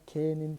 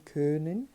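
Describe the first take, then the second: First: "Kennen" with a plain open E, said slowly; German Kennen. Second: "Können" with rounded lips and the umlaut Ö, rising; German Können. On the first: Teacher to students, contrasting Kennen with Können. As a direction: say "Kennen" clearly with E in the first syllable. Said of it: "se aproxima muito do Kennen". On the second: Teacher to students, showing the umlaut Ö in Können. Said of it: "o O tremado, a pronúncia ela passa um pouquinho pelo E". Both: Shown as a demonstration.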